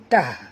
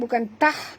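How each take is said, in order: First: The T sound is deep and heavy. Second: The T sound is light and thin. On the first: The speaker calls it right. "tapi bunyi dia tah, dalam" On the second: The speaker calls it wrong.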